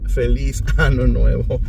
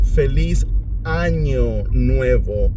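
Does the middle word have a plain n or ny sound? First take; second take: plain n; ny. First: The middle word has a plain n sound. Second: The middle word has an ny sound. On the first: It wishes a happy new anus. The speaker calls it wrong. "instead of" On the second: It wishes a happy new year. The speaker calls it right. "He should have actually said to them"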